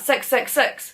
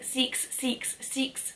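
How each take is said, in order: First: The vowel in six sounds like 'sux'. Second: The vowel in six sounds like 'seeks'. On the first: The speaker calls it right. "I'm just a Kiwi" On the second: The speaker calls it wrong. "the Australians saying six, six, six, you are incorrect"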